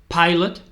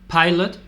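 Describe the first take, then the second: No difference in how they are said.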